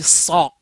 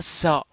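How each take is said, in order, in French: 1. Le son s est emphatique et à bouche pleine. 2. Le son s est simple et léger. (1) "mais je dis ça. J'ai la bouche pleine" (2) "Je dis pas ça"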